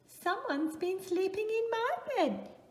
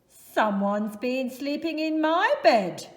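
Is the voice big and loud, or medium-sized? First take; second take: medium-sized; big, loud. First: It is said in Mama Bear's medium-sized voice. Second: It is said in Papa Bear's big, loud voice.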